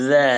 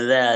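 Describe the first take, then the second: No difference in how they are said.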